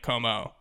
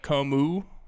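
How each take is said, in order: First: The name ends with an 'oh' vowel. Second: The name ends with an 'oo' vowel. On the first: "or oh" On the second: "either just like an oo"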